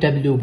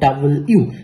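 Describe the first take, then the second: First: The syllables run together into 'dablyu'. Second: It is said clearly as 'double' then 'you'. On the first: The speaker calls it wrong. "অনেক সময় আমরা ডাব্লিউ বলি" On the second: The speaker calls it right. "নেটিভটা বলা হয় ডাবল ইউ"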